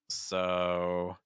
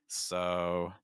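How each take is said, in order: No difference in how they are said.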